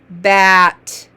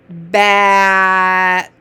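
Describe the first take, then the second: First: It is said fast, sounds run together. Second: It is said slowly, sounds stretched out.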